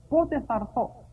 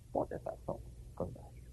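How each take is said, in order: First: Said in the usual way. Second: Breathy whisper, fast; whispered longing. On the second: Shown as a demonstration. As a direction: whisper it like a secret prayer. (ψιθυριστά, με λαχτάρα)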